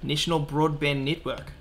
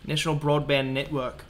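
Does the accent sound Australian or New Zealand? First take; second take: New Zealand; Australian. First: It is spoken in a New Zealand accent. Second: It is spoken in an Australian accent. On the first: The speaker calls it wrong. "was definitely New Zealand" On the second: The speaker calls it right. "That was better, wasn't it?"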